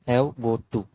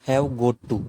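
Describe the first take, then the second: The two takes are said the same way.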